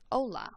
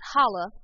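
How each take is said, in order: First: The h at the start is silent. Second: The h at the start is pronounced. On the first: The speaker calls it right. "it's completely silent" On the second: The speaker calls it wrong. "Not holla"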